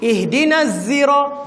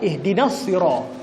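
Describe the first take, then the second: First: The word begins with a z sound. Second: The word begins with an emphatic s sound. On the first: "dibaca dengan zai" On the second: "Kita baca dengan sad"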